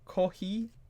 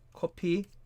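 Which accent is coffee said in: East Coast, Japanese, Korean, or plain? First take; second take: Japanese; Korean. First: It is said with a Japanese accent. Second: It is said with a Korean accent. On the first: "for the Japanese, they like to say kohi" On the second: "Or for the Koreans"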